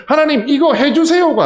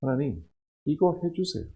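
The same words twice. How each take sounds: First: 하나님, 이거 해주세요 said loud and high, falling on 해주세요가; loud cited plea. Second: Quiet pleading prayer, 이거 falling; soft petition. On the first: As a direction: proclaim the plea out to the hall. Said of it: "아니라". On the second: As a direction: murmur 하나님, 이거 해주세요 like a private plea. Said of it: "이렇게 기도하고 있지 않나요?". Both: Retold or imitated.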